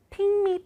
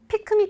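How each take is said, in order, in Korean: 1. 마지막 k 소리가 거의 발음되지 않아요. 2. 마지막 k 소리가 분명하게 터져요. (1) "pick me라고 하죠" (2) "pick me라고 안 하잖아요"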